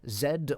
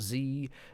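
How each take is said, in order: First: The letter is said in a non-American way. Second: The letter is said the American way.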